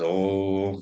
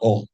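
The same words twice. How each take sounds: First: The vowel is held for a very long time. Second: The vowel is short and not drawn out. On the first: The speaker calls it right. "It is Om" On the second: The speaker calls it wrong. "the Om is not Om"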